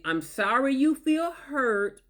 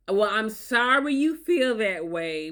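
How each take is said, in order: First: Very slow, condescending sorry; mock sympathy, dragging it out; fake apology. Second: Slow, drawn-out insincere apology; fake apology. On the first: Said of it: "which is not an apology". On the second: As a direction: apologise without meaning it. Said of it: "they use phrases like".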